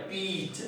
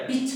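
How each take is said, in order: First: पीच with a drawn-out long ee; long vowel peach. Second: पिच with a short clipped i; short vowel pitch. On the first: Teacher contrasting long vowel for students, drawn-out पीच. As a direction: stretch the ee in पीच. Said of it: "मतलब लंबा sound आ रहा है". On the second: Teacher showing students the short vowel in पिच. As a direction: say पिच quickly, the i kept short. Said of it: "ऊपर वाला क्या है?". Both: Shown as a demonstration.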